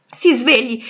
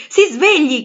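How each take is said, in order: First: Loud urgent call to wake him; urgent shout. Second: Higher and louder, desperate cry; desperate shout. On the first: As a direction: shake him awake with your voice. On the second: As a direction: yell it at full force to wake him. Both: Acted.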